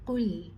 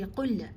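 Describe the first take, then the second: First: The final l is held without a bounce. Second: The final l is released with a bounce. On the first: The speaker calls it right. "You pause with it. You do not bounce it" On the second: The speaker calls it wrong. "we do not give it a qalqala. Don't say"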